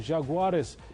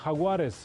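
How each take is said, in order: First: The name is said in an English way. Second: The name is said in a Spanish way.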